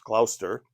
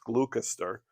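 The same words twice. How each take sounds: First: It is said the English way. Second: It is said as an American reading it.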